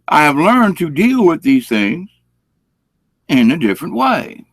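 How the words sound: It is said in a calm, even tone.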